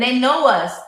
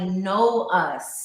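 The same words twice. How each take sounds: First: Said in the usual way. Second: "know us" drawn out with weight on "know"; stress on know. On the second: Real, not acted. Podcast guest stressing how deeply kids know parents, weighty "know". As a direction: lean slowly on "know", then let "us" fall. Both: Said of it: "I mean, like".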